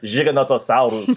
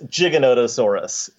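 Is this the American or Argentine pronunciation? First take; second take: Argentine; American. First: It is said with an Argentine pronunciation. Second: It is said with an American pronunciation.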